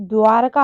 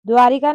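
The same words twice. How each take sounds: First: द्वारका with no i after र; correct pronunciation. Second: द्वारिका with ri in the middle; wrong pronunciation. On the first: Teacher correcting the name, द्वारका without i. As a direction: say द्वारका as dwar-ka. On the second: Teacher showing the error, द्वारिका with ri. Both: Shown as a demonstration. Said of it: "द्वारिका नहीं".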